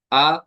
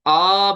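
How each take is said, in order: First: आ let go to stop by itself; a medium आ, neither dragged nor jerked; easy release. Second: आ dragged out long and louder; stretched vowel. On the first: Teacher modelling the right आ, gently released. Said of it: "खुद रुकने देंगे". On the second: Teacher showing the stretching mistake, long loud आ. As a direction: hold the आ far too long. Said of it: "खींचेंगे भी नहीं". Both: Shown as a demonstration.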